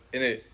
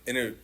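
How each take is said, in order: Both takes have the same delivery.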